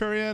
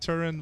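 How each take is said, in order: First: The name has three syllables, ending in -ian. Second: The name has two syllables, ending in -in. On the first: This is believed to be the proper pronunciation. "I believe it's pronounced Turian" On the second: This is how the speaker has always said it. "I've always pronounced it Turin"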